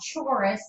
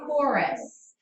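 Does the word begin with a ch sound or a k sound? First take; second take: ch sound; k sound. First: It begins with a ch sound, as in church. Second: It begins with a hard k sound. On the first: The speaker calls it wrong. "This is not a chorus" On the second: The speaker calls it right. "It has that hard, that K sound"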